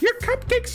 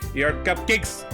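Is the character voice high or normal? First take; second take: high; normal. First: The voice is put on very high. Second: The voice is at a normal pitch.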